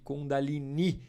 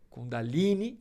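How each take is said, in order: First: The stress falls on the final syllable. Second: The stress falls before the final syllable. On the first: The speaker calls it right. "O ideal é pronunciar esse I mais forte" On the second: The speaker calls it wrong. "é uma forma considerada menos correta de pronunciar"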